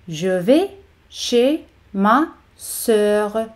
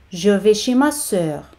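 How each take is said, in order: First: "Je vais ... chez ... ma ... sœur", very slowly; very slow teaching model of "Je vais chez ma sœur"; slow, word by word. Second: Said in the usual way. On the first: Shown as a demonstration. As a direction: pause between the words of "Je vais chez ma sœur". Slow model before normal-speed take.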